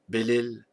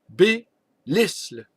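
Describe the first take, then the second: First: The name is said without an S sound. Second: The name is said with an S sound. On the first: This is how the name used to be said. "celui qu'on appelait autrefois" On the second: This is how the name is said now. "On prononce le S maintenant"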